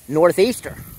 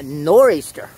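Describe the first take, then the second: First: The 'th' sound in the middle is pronounced. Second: The 'th' sound in the middle is dropped. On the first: It names the wind direction in full. "the name of the direction that the wind comes out of" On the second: It is the common local way of saying it. "say it pretty much like everybody else in the country does now"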